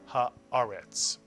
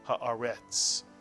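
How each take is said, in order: First: The stress is on the second syllable. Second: The stress is not on the second syllable. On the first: The speaker calls it right. "accent the word on this syllable" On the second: The speaker calls it wrong. "not haaretz"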